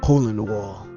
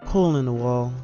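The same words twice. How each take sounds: First: It is read in her character's voice. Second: It is read in the speaker's natural voice.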